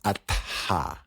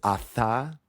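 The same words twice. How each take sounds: First: The middle is a 't' followed by a separate 'h'. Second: The middle is one 'th' sound as in Seth. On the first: The speaker calls it right. "the correct pronunciation, if I'm technical, is atha. So you pronounce the T and the H separately" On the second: The speaker calls it wrong. "with good intentions, mispronounced as atha"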